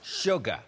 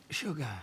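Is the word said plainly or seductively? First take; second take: plainly; seductively. First: It is said in a plain, neutral tone. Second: It is said in a sexy, seductive tone.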